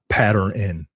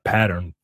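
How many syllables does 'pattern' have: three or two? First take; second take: three; two. First: An extra N syllable is added at the end. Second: It ends plainly, with no extra syllable. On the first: "Like the N has its own syllable" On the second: "Not pattern"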